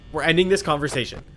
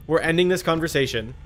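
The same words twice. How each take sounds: The two takes are said the same way.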